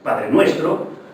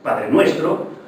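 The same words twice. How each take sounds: First: Only Nuestro carries stress; Padre is unstressed. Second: The same.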